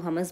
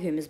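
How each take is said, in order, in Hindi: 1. यह शब्द सादे 'huh' ध्वनि से शुरू होता है। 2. यह शब्द 'hyoo' ध्वनि से शुरू होता है। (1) "कुछ लोग इसको हमस बोलते हैं" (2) "कुछ इसको ह्यूमस बोलते हैं"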